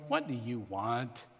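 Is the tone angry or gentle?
angry. It is said with an angry attitude.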